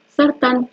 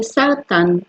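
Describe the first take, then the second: First: Said in the usual way. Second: Sartán said slowly, each syllable sar-tán clear; sartán drawn out, teacher showing the Hebrew word. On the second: Shown as a demonstration. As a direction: spell out sartán slowly for the class. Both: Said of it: "¿Cómo se dice cáncer en hebreo?".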